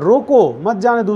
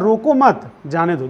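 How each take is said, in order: First: There is a pause right after 'roko'. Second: There is a pause right after 'mat'. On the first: The man should be stopped from going. "यहां पर कह रहा है रोको मत जाने दो, उसको रोक लो" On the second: The man should be allowed to go. "ये कह रहा है रोको मत जाने दो"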